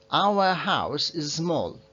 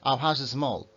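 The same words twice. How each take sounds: First: Slow careful. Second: Fast speech. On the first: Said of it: "cuando estamos hablando muy rápido, igual suena distinto". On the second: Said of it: "cuando estamos hablando muy rápido". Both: Shown as a demonstration.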